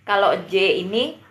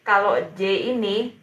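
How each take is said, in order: Both takes have the same delivery.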